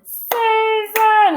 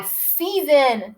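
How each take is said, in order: First: "Season" high, drawn out in two beats; high, stretched "Season", split into syllables. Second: Said in the usual way. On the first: Shown as a demonstration. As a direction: chant "Season" as SEA-SON, both syllables held. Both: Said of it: "How many syllables are in season?".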